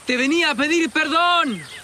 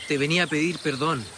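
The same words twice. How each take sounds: First: It is shouted at full volume. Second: It is said at a normal volume.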